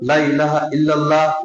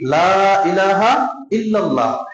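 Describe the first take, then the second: First: The words of the phrase are slurred together. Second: Each word of the phrase is pronounced clearly. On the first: Surely there is a god other than Allah. The speaker calls it wrong. "অনেক আছে না" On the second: There is no god but Allah. The speaker calls it right. "আপনাকে বলতে হবে কি লা ইলাহা ইল্লাল্লাহ"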